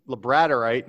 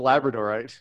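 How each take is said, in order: First: "Labradorite" stressed on BRAD: la-BRAD-orite; professor's pronunciation. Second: Said in the usual way. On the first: Retold or imitated. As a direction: imitate the odd "Labradorite", punching the second syllable. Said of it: "Labradorite instead of Labradorite". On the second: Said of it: "instead of Labradorite".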